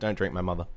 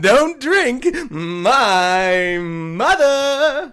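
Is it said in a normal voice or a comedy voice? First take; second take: normal; comedy voice. First: It is said in a normal voice. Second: It is said in a comedy voice.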